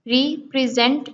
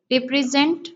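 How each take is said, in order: First: "रिप्रेजेंट" as re, pause, present; split into syllables. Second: Said in the usual way. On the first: Shown as a demonstration. Teacher counting syllables in represent, split in two. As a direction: break "रिप्रेजेंट" after the first syllable. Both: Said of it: "two syllable".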